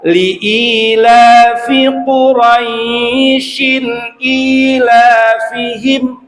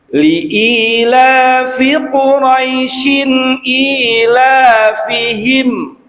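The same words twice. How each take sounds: First: The 'ai' in Quraisyin is drawn out longer. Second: The 'ai' in Quraisyin is held one beat. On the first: The speaker calls it wrong. "Tidak dibaca" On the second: The speaker calls it right. "itu rai satu ketuk saja"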